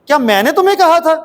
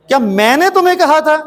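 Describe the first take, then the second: No difference in how they are said.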